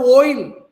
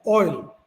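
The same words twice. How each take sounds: First: The word is said with a strongly pronounced O. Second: The word is said with an in-between vowel. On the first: The speaker calls it wrong. "for them it is O is very pronounced" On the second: The speaker calls it right. "it is between O and R"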